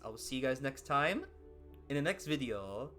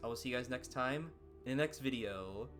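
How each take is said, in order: First: It is said in an exaggerated cartoon-character voice. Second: It is said in the speaker's natural voice. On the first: "my Mario voice" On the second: "my real life voice"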